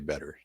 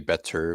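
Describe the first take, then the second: First: The middle consonant is a d-like flap. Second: The middle consonant is a clear t. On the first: This is how the speaker's group says it. "double T's, turn into like D's" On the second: This is not how the speaker's group says it. "We don't say better"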